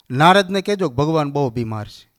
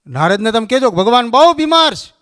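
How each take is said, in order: First: Said in the usual way. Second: બહુ pushed higher and louder; stress on બહુ. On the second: Retold or imitated. God instructing the doorkeeper, stress on બહુ. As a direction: lean on બહુ, the rest follows.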